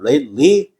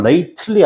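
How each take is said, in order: First: Lately with a silent, stopped T, "leit-lee". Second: Lately with the T sounded, "late-uh-lee"; T 발음을 살린 발음. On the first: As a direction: drop the T release in "lately". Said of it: "T 발음 안 납니다". ("lately"의 T를 터뜨리지 않고 "레잇리"로) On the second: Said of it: "발음은 lately 아니면 T 발음 안 납니다". ("lately"의 T를 살려 "레이틀리"로) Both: Shown as a demonstration.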